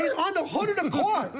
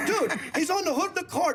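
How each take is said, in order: First: Higher, emphatic confirmation; excited. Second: Chuckling repeat; laughing. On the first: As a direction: nearly shout it. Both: Real, not acted.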